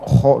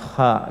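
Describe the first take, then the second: First: The throat sound is rough and snore-like. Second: The throat sound flows smoothly without stopping. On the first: The speaker calls it wrong. "bukan seperti maaf kalau tidur ngorok" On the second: The speaker calls it right. "kha itu mengalir. Ya, tidak tertahan"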